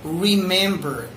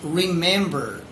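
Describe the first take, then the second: Both takes have the same delivery.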